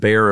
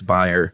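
First: The name is said the American way, not like buyer. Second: The name is said the German way, like buyer. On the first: This is how it is said in America. "We pronounce it Bayer over here" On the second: This is how it is said in Germany. "How you pronounce it over there. It's Bayer"

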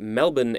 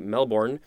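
First: It is said the local Australian way. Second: It is said with an American pronunciation.

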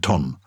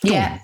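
First: The word is said with an English pronunciation. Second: The word is said with a French pronunciation. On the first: The speaker calls it wrong. "rather than ton" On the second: The speaker calls it right. "I think you should pronounce it with a French lilt"

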